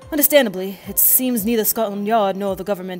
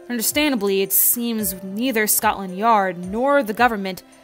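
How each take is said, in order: First: It is said in a British accent. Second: It is said without a British accent. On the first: The speaker calls it right. "I gotta give him a British accent" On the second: The speaker calls it wrong. "I should be giving him a British accent, shouldn't I?"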